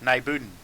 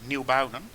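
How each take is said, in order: First: The name is said in the local dialect. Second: The name is said in its standard form. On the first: "which is a dialect" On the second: "instead of Nieuwbuinen"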